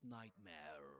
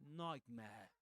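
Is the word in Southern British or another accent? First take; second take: other; Southern British. First: It is said in a different accent. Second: It is said in a Southern British accent. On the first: The speaker calls it wrong. "not nightmare" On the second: The speaker calls it right. "in Southern Standard British English, ... you will say nightmare"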